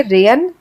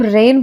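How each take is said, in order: First: रेयन split into two syllables; wrong pronunciation. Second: रेन as one syllable, g silent; correct pronunciation. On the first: Teacher showing what we don't say, mispronounced in two syllables. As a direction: break it up as re-yan in रेयन. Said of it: "हम इसे रेयन नहीं बोलते हैं". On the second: Teacher showing how we say it, correct with silent g. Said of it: "इसे हम रेन बोलते हैं". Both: Shown as a demonstration.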